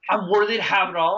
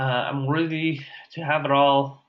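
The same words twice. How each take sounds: First: It is said loudly and forcefully. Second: It is said weakly and hesitantly.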